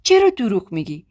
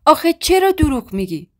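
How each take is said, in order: First: چرا دروغ میگی asked in mild shock, near usual pitch; stunned disbelief. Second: آخه چرا دروغ میگی pushed much higher and louder; angry pleading. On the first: (با تعجب، آرام) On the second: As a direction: break out in outraged disbelief. (با خشم و ناباوری، بلندتر) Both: A narrator's reading. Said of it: "با تعجب و خشم تو چشام نگاه کرد".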